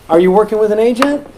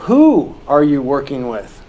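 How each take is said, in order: First: Said in the usual way. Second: Slow, with who leaned on at the start; stress on who. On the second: Shown as a demonstration. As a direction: ask it slowly, putting the weight on "Who". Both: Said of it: "I don't ask that".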